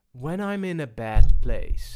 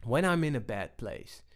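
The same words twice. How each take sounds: First: Louder take. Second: Said in the usual way. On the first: Shown as a demonstration.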